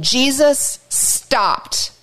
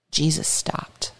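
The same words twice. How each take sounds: First: Slowly, letting it land; slow and drawn out. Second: Hushed, slow whisper. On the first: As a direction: stretch every word. Dramatic retelling. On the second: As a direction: drop to a whisper for the moment. Dramatic pause in story. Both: A narrator's reading.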